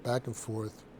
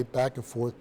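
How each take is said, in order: First: Trailing off. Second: Said in the usual way. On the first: Shown as a demonstration. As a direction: back and forth dropped lower and much softer. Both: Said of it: "repeated phrase, second fades".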